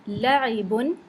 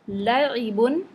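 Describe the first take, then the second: The two takes are said the same way.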